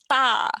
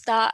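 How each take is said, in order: First: The word begins without an s sound. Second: The word begins with an s sound. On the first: "not star, ta" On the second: "would pronounce star"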